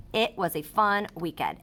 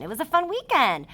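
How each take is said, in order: First: Said in the usual way. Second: Higher and brighter, showing real joy in the words; a teacher modelling an excited exclamation. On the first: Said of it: "put an exclamation point because I'm showing emotion". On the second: Shown as a demonstration. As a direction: read it like the exclamation point is there. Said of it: "I'm showing excitement".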